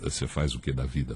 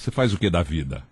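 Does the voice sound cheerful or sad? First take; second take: sad; cheerful. First: The voice sounds sad and downcast. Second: The voice sounds cheerful and smiling. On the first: "vou ficar triste agora" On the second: "estou sorrindo agora"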